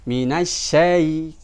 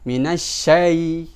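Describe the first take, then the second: No difference in how they are said.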